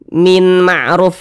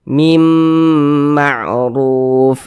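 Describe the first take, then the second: First: The n is pronounced clearly before the m. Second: The n merges into a nasalized m sound. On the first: The speaker calls it wrong. "Jangan dibaca min ma'ruf" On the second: The speaker calls it right. "Kita baca mim ma'ruf, begitu"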